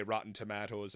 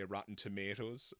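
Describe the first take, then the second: First: Tomatoes with an 'ah' in the middle; own pronunciation. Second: Tomatoes with an 'ay' in the middle; American pronunciation. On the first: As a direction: say "Tomatoes" as to-MAH-toes. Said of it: "I say Rotten Tomatoes". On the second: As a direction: say "Tomatoes" the American way, to-MAY-toes. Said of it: "Americans will say Rotten Tomatoes". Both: Shown as a demonstration.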